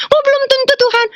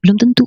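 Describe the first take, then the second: First: Dismayed echo. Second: Said in the usual way. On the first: Retold or imitated. Woman repeating God's answer back to him, high dismayed echo. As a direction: wail it back high, like a let-down child. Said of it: "Saya bilang". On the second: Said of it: "Tuhan bilang".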